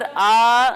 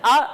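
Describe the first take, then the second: First: The vowel is drawn out long. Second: The vowel is cut off with a jerk. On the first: "खींचकर आ नहीं पढ़ेंगे" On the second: "झटका देकर आ भी नहीं पढ़ेंगे"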